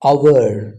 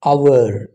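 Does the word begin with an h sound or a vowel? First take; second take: vowel; vowel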